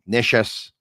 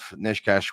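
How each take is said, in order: First: The middle consonant is a soft ch sound. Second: The middle consonant is a hard k sound. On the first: The speaker calls it right. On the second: The speaker calls it wrong.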